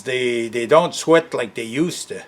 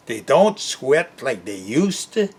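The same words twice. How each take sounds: First: Said in the usual way. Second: Sigh, then repeat it back with a questioning rise; can't believe he said that; incredulous echo. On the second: Real, not acted. Echoing the clerk's excuse back in disbelief, rising at the end.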